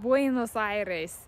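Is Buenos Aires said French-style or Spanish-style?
Spanish-style. It is said with Spanish pronunciation. This is how a native speaker says it. The speaker calls it right. "the Argentinian man ... who goes"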